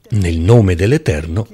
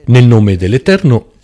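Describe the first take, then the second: First: Said in the usual way. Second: Nel nome dell'Eterno, louder, with Nel hit hard; louder emphatic Nel nome dell'Eterno; stress on Nel. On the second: Shown as a demonstration. Preacher repeats the phrase, emphatic.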